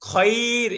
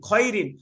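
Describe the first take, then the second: First: The word ends on r without an n. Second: The word ends with an n sound. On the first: The reader stops on this word. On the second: The word is read without stopping.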